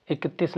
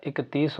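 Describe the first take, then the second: First: "इकतीस" with a short i before the s, as iktis; wrong pronunciation. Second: "इकतीस" with a long ee, as ikatees; correct pronunciation. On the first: Teacher tells students what it is not, wrong short-vowel pronunciation. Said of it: "इकतीस नहीं होता है". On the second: Teacher corrects the word for students, right long-vowel pronunciation. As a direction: lengthen the ee in "इकतीस". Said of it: "इकतीस होता है". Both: Shown as a demonstration.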